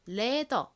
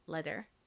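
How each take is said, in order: First: The word ends without an r sound. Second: The word ends with an r sound. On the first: "한국식으로는 ... r의 리을 받침을 빼고 표기를 합니다. 그래서 leather 이렇게 표기하고 발음하는 경우가 많습니다" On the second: "실제 미국식 영어 발음으로는 가죽을 leather이라고 합니다"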